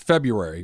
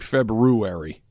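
First: The r after the b is left out. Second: The r after the b is pronounced. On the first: This is how people usually say it. "There's that superfluous R in the front. Nobody says it" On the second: This matches how the word is spelled. "But it's actually February"

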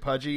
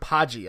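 First: The first vowel is not a long A. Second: The first vowel is a long A. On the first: This is how the player's name is pronounced officially. "Herman pronounced it Pudgy" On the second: This is how the name had been guessed before. "I'd been getting the long A on that"

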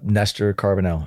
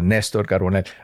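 First: The name is said with an English accent. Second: The name is said with a Spanish accent. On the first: "In English?" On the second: "My parents would say Néstor Carbonell"

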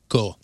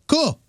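First: It sounds flat and curt. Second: It sounds relaxed and friendly.

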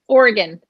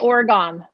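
First: The last syllable is short and reduced. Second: The last syllable rhymes with Calgon, fully pronounced. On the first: The speaker calls it right. "but it's Oregon" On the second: The speaker calls it wrong. "people always say Oregon, like Calgon"

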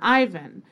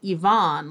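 First: The name is said the anglicized way. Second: The name is said the Russian way. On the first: "the anglicized pronunciation Ivan" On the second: "frankly pronounce it Ivan, like characters in the famous Russian novels"

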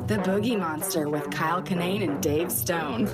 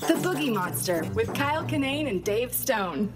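First: It is said in a sultry, sexy tone. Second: It is said in a plain, sincere tone.

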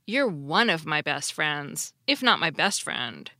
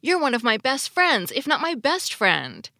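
First: The sentence is said in a doubtful tone. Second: The sentence is said in an enthusiastic tone. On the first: The listener is not quite the very best friend. "if he had used a doubtful tone of voice and said" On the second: The listener may even be the very best friend. "When Aardvark enthusiastically told Squiggly"

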